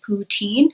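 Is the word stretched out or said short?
stretched out. It is said stretched out, Anglo Canadian style.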